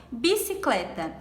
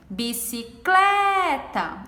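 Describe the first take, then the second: First: Said in the usual way. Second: "Bicicleta" with "cle" stretched long and stressed; calling the word. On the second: Shown as a demonstration. Teacher shows the tonic syllable, "Bicicleta" called with a long "cle". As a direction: call out "Bicicleta" slowly, leaning hard on "cle". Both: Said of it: "O clé é a sílaba mais forte".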